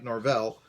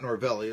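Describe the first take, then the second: First: The name ends with an 'l' consonant. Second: The name ends with an extra 'ee' vowel. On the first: The speaker calls it right. "it's Mike Norvell" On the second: The speaker calls it wrong. "it's not Norvelli"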